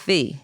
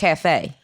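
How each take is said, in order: First: The name is pronounced as Kafi. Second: The name is pronounced like the word cafe. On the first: This is the speaker's real name. The speaker calls it right. "it's Kafi" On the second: This is how someone else says the name. The speaker calls it wrong. "He say it wrong every time he say it"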